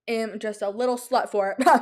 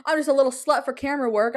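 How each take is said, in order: First: Said in the usual way. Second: Giggling, fast. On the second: Real, not acted. Giggly confession about camera work.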